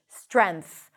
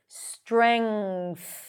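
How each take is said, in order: First: It ends with an n sound then th. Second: It ends with an ng sound then th. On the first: "drop all the messy consonants in the back and just say strength, N and TH" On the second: "NG sound, and then push the tongue out for the TH"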